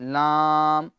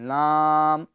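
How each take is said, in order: Both takes have the same delivery.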